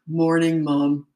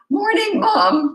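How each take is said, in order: First: A deep, steady man's voice. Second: A cracking, boyish teenage voice.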